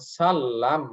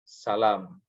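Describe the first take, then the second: First: The l sound is held long, doubled. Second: The l sound is short and single. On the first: "menggunakan tasydid" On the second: "tidak menggunakan tasydid"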